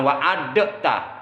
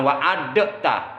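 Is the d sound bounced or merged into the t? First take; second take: bounced; bounced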